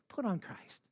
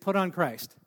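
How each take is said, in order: First: It is said in a solemn church-lady voice. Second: It is said in a plain, normal voice.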